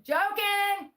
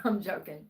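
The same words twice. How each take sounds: First: High, loud, drawn-out call; exclaimed at a high pitch to clear the air; emphatic disclaimer. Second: Said in the usual way. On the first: Real, not acted. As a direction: sing out the disclaimer loudly, way up high. Loud repeat of a joke disclaimer.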